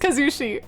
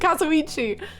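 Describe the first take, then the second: First: The name ends in the syllable shi. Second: The name ends in the syllables ichi. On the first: The speaker calls it right. "his name is Kazushi" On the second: The speaker calls it wrong. "but I was calling him Kazuichi"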